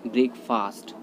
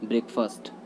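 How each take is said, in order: First: ब्रेकफास्ट with long open 'faast'; ब्रेकफास्ट, second half like English 'fast' with a long a; common mispronunciation. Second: ब्रेकफास्ट with short neutral 'fust'; ब्रेकफास्ट, second vowel reduced to a schwa; correct pronunciation. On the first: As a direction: say ब्रेकफास्ट as 'brek-FAAST'. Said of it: "जो कि गलत होता है". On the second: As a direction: say ब्रेकफास्ट as 'BREK-fust'. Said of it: "right pronunciation इसका होता है". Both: Shown as a demonstration.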